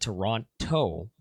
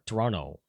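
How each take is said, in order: First: The second T is clearly pronounced. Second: The second T is dropped. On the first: The speaker is not from the city. "if you're not from Toronto, uh, you'll pronounce it Toronto" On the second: The speaker is from the city. "without even pronouncing the T"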